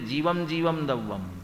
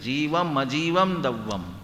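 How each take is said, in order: First: Said quickly, the 'a' before the second word vanishes. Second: The 'a' before the second word is clearly pronounced. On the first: Only one kind of substance is described. The speaker calls it wrong. "हम जल्दी जल्दी बोलेंगे" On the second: Both kinds of substance are described. The speaker calls it right. "म का उच्चार अ के सहित करेंगे"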